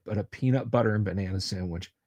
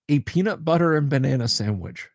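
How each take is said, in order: First: "peanut butter and banana sandwich" said again lower and softer, savouring it; quiet repeat. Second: Said in the usual way. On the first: Shown as a demonstration. Streamer telling chat about his snack, lower and softer.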